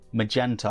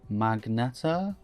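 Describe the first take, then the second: First: The n comes after the e, as magenta. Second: An n comes before the e, as magneta. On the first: The speaker calls it right. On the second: The speaker calls it wrong. "I put like an N in front of it"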